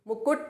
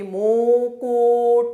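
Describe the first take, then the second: First: The u vowels are said short. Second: The u vowels are said long. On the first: The speaker calls it right. "छोटे ओ की।" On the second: The speaker calls it wrong. "अगर इसमें माँ में मैं बोल देती मुकुट तो क्या हो जाती मात्रा आपकी? बड़े ओ की। तो वो हो जाता आपका बिल्कुल गलत।"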